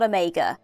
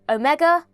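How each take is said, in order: First: The stress is not on the final syllable. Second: The stress is on the final syllable. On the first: The speaker calls it wrong. "it's not Omega" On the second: The speaker calls it right. "they put more emphasis on the A part of the word"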